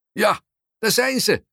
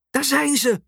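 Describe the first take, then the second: First: Man calling out. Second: Mild mock shriek, very high-pitched; sudden shriek. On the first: Man in the crowd confirming the sighting, calling out. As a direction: call it out to the crowd. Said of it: "roept de meneer". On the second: Mum spotting the royal couple, a read-aloud shriek. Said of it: "Ze gilt opeens". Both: A narrator's reading.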